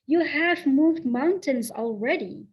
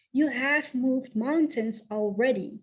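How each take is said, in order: Both takes have the same delivery.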